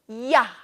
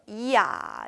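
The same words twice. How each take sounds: First: The two vowels are run together quickly into one. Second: The two vowels are said slowly as separate sounds. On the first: "빨리빨리 하면 어떻게 돼요? 이야 이렇게" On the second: "이야, 이야 해서"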